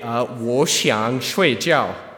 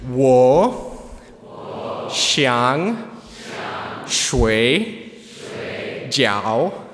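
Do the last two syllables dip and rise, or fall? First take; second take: fall; dip and rise. First: The last two syllables do not dip and rise. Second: The last two syllables dip down and then rise. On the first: The speaker wants to go to sleep. The speaker calls it right. "let's say you're really tired and you want to go to bed" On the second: The speaker wants dumplings. The speaker calls it wrong. "putting third tones, so that's the down and then up, on the last two words, you're actually ordering some food"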